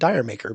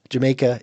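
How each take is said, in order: First: It sounds like the words dire maker. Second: It sounds like the word Jamaica. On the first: The speaker calls it wrong. "for years I was calling it Dire Maker" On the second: The speaker calls it right. "how it sounds when you say it properly with the right accent"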